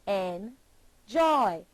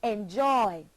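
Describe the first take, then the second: First: "Enjoy" broken in two, "En", pause, "joy"; split into syllables. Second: Said in the usual way. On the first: Shown as a demonstration. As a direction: say "Enjoy" slowly, one syllable at a time. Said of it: "Two syllables". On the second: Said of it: "Put your hand beneath your chin and say".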